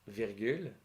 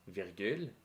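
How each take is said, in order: No difference in how they are said.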